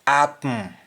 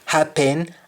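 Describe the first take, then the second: First: Sung, HAPPEN as "ap-m"; sung, Jamaican "apm" for HAPPEN; Jamaican humming. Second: HAPPEN with full "pen", higher; English-style HAPPEN with H; English pronunciation. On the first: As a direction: hum the end of HAPPEN, no H. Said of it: "same thing in Jamaican". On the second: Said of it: "The E N at the end". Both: Shown as a demonstration.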